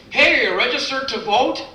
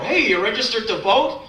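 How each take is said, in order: First: High, chirpy clipboard-guy call; much higher mock canvasser hailing shoppers; pushy canvasser. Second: Lightly voiced eager canvasser; a hint of a chirpy clipboard guy; pushy canvasser. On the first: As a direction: pester passers-by brightly. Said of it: "those really ridiculous people". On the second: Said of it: "fifty-five-year-old guy".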